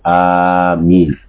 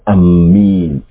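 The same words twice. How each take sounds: First: The first vowel is drawn out long. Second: The m sound is doubled and held. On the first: The speaker calls it right. "It is permissible for you to elongate the Hamza" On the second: The speaker calls it wrong. "it's not permissible to to double the meme"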